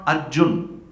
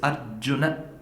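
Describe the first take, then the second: First: The name ends on a consonant, no final vowel. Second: The name ends with a final 'a' vowel. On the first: The speaker calls it wrong. "It's not Arjun" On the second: The speaker calls it right. "it's Arjuna. That akaram has to be there"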